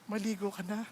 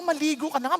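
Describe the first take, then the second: First: It is said in a gentle, caring tone. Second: It is said in a harsh, scolding tone. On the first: The speaker corrects the listener out of love. The speaker calls it right. "in a loving way" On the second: The speaker is scolding and insulting the listener. The speaker calls it wrong. "hindi yung"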